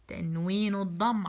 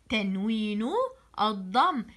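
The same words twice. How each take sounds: First: تنوين الضم said quickly, run together; rushed first try. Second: تنوين and الضم said separately, with a pause between them; careful correction. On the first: Teacher slips while naming the vowel mark, rushed. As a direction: hurry تنوين الضم before a self-correction. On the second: Teacher correcting herself for pupils, carefully separating words. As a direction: split تنوين ... الضم cleanly, word by word. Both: Shown as a demonstration. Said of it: "عفوًا".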